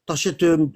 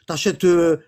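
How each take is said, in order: Both takes have the same delivery.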